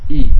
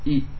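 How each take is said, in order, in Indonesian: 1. Vokalnya penuh, dengan rahang bawah diturunkan. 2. Vokalnya lemah, tanpa rahang bawah diturunkan. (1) "tapi dengan diturunkan" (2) "Enggak sempurna"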